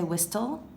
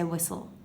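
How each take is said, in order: First: The T sound is clearly pronounced. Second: The T sound is left silent. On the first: The speaker calls it wrong. "We don't say whistle" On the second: The speaker calls it right. "we don't really pronounce the T. ... we say whistle"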